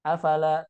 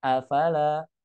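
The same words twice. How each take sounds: First: Afala as one short word; run together. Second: A apart, fala drawn out; separated words. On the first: Teacher showing the wrong reading, run together. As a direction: say "afala" quickly, joined up. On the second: Teacher showing the correct reading, separated words. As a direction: say "afala" slowly as a, then fala. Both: Shown as a demonstration. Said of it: "tapi afala".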